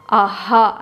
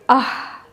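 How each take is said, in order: First: It ends in a full voiced ha syllable. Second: It ends in a plain puff of breath. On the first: The speaker calls it wrong. "we pronounce as if it's a ha" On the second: The speaker calls it right. "an expulsion of air"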